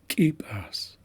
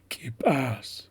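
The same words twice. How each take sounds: First: The stress is on the first syllable. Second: The stress is on the last syllable. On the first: This is the Hanaxiala dialect form. "we're putting the accent on the first syllable" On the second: This is the Haisla dialect form. "we're putting emphasis on that last syllable"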